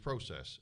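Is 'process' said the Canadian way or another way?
Canadian. The word is said in a Canadian pronunciation. "as they say in Canada"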